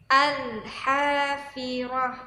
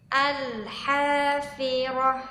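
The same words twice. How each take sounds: Both takes have the same delivery.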